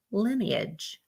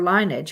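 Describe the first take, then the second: First: "lineage" said LIN-ee-ij; "lineage" opening like "linen", then ee-ij; short-i lineage. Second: "lineage" said LINE-ij; "lineage" with a long i, two syllables. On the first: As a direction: say "lineage" with a short i, three syllables. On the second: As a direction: say "lineage" starting like the word line. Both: Shown as a demonstration. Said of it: "however the fuck you say it".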